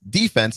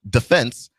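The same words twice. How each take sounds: First: The stress is on the first syllable. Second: The stress is on the second syllable. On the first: This is the American way, taken from sports chants. "we pronounce the word defense" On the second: This is how other English-speaking countries say it. "and not defense, like every other English speaking"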